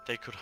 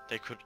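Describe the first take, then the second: No difference in how they are said.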